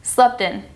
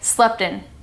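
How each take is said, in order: First: The T sound is left out. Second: The same.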